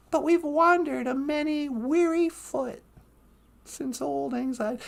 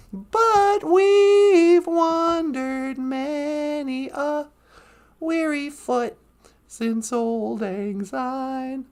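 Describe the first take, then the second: First: Said in the usual way. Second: Very slow, drawn-out singing; sung, sung song line. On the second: Acted. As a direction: sing it slowly, letting the end sink. Quotes song refrain by singing.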